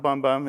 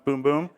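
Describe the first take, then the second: First: The vowel sounds like the vowel in bum. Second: The vowel sounds like the vowel in boom. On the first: The speaker calls it wrong. "It's not Bum Bum" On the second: The speaker calls it right. "that's how you say it"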